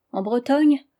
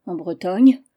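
First: En Bretagne? asked higher, rising like a probing question. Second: En Bretagne. settled and louder, a flat confirming answer. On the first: Privat presses the marquise, probing question. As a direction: lift Bretagne into a sharp question. Privat asks, Marianne echoes. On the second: The marquise answers Privat, firm confirming statement. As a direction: drop Bretagne as a plain yes. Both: Acted.

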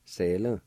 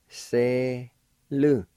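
First: Said in the usual way. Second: Two long, separated syllables; teacher sounding it out slowly. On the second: Shown as a demonstration. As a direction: stretch each syllable with a pause between. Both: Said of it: "I'll pronounce these words".

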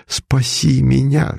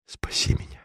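First: "Спаси меня" voiced slow, rising at the end; the count moans "Спаси меня" aloud, slow and pleading; plaintive moan. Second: "Спаси меня" breathed as a whisper; the count whispers "Спаси меня" to the bronze Virgin; whispered plea. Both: A narrator's reading. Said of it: "жалобно простонал он".

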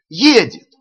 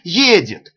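First: Much higher, louder excited yell; loud shouting. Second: Higher, louder call; shouting. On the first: (ещё громче кричат) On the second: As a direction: call out the news. (громкий крик) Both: A narrator's reading. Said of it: "закричали".

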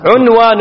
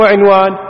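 First: عنوان starting with u, 'unwan; damma on ع. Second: عنوان starting with i, 'inwan; mistaken kasra. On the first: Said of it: "مو عنوان". (عنوان بضم العين) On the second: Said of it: "هذا غلط". (عنوان بكسر العين خطأً) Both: Shown as a demonstration.

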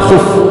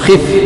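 First: خف said "khuf"; "khuf", u after the kha of خف; wrong damma form. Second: خف said "khif"; "khif", i after the kha of خف; correct kasra form. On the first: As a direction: say خف with a short u. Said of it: "لا نقول". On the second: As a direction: say خف with a short i. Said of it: "نقول". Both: Shown as a demonstration.

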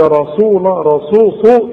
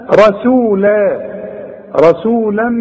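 First: رسول with the sin blurred toward sad; رسول with the sin half a sad; sad-like sin, wrong. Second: رسولا with a clean sin, drawn out slowly; رسولا with a clear sin, said slowly. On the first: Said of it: "بين السين والصاد". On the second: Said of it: "طلع السين سين". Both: Shown as a demonstration.

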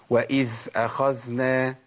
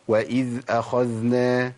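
First: وإذ أخذنا with the ذ of وإذ breathy like ث; dhal with breath. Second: وإذ أخذنا slow, both ذ clearly voiced and flowing; audible dhal. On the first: Teacher demonstrates the error: ذ leaking breath like ث. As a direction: let air escape on the ذ in وإذ. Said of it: "اسمعوا بقى الخطأ". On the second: Teacher models the correct reading: ذ voiced, unhurried. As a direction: make each ذ in وإذ أخذنا ring out. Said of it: "أبين الصوت زي ما عملت كده". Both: Shown as a demonstration.

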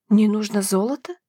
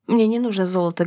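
First: "Не нужно золото" lifted into a rising question; "Не нужно золото" asked back with rising tune; puzzled question. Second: Said in the usual way. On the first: A narrator's reading. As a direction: end "золото" on a questioning rise, not understanding. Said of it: "Черноглазая явно не понимала".

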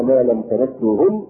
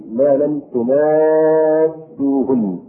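First: Said in the usual way. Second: تماسوهن with u after the ت and a long drawn-out aa; variant Quranic reading. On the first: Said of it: "وفي قراءة". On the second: Shown as a demonstration. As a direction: recite تماسوهن slowly as "tumaaassuhunna", holding the aa. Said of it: "بضم التاء".

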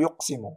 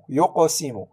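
First: Said in the usual way. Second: "يقسم" with a short echo after q; قلقلة صغرى. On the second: Shown as a demonstration. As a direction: release the q in "يقسم" before the s. (قلقلة القاف في "يقسم") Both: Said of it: "لا نقول يقسم".

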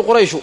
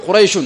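First: قريش ending in a short u, no final n; no tanween. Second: قريش ending in a nunated -un; with tanween. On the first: Teacher showing the tribe-name form to students, without tanween. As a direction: say قريش without nunation, closing on -u. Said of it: "وإذا أردنا بها القبيلة". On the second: Teacher showing the clan-name form to students, with tanween. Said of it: "فالعلمية لوحدها لا تمنع من الصرف". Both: Shown as a demonstration.

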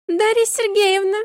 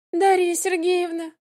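First: High squeaky voice, much higher. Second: High plaintive drawn-out call; plaintive drawl. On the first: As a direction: squeal the name like a rubbery squeaky toy. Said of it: "неожиданно писклявым голосом". (писклявый голос) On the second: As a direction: whine the name pitifully. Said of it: "ещё жалобнее протянула она". (жалобно, протяжно) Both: A narrator's reading.

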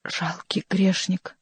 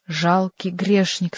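First: Slow, sombre and soft; drawn-out grieving words; slow mournful lament; gloomy mournful voice. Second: Voice from above. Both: A narrator's reading. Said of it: "ещё более мрачным и скорбным голосом".

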